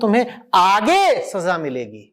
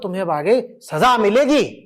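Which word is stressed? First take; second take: आगे; सजा. First: The word आगे carries the stress. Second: The word सजा carries the stress. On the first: The punishment comes only later, not today. "पापी ने किस शब्द पे जोर डाल दिया?" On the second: Wrongdoing will certainly bring punishment. "सजा पे।"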